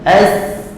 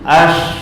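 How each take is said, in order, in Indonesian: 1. Bunyi s itu tipis dan ringan. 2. Bunyi s itu tebal dan berat. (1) "As nipiskan, jangan muncung" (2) "Ash jadi huruf sad"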